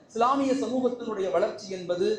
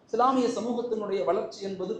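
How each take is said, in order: Both takes have the same delivery.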